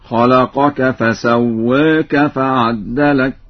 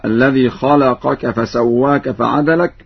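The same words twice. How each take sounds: First: Slow recitation, فعدلك with a doubled d; Warsh doubled dal. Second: Said in the usual way. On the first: Shown as a demonstration. Teacher demonstrates Warsh, فعدلك recited slowly with doubled dal. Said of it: "بتشديد الدال في لفظ عدلك هكذا". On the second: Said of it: "بتشديد الدال في لفظ عدلك".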